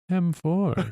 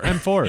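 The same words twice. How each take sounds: First: It sounds relaxed and calm. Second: It sounds tense and angry. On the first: The speaker calls it right. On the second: The speaker calls it wrong.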